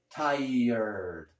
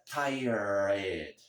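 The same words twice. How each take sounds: First: The ending sounds like 'erd', with r last. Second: The ending sounds like 'red', with r first. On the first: The speaker calls it right. "a gente pronuncia como se fosse T I E R D" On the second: The speaker calls it wrong. "não é tired. Eu sei que aqui tem R E D"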